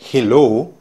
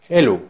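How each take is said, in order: First: The word starts with an audible h sound. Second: The word starts with no h sound. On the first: "en lugar de decir hello" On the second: "En Patua vas a encontrar que el sonido de la H también es silencioso"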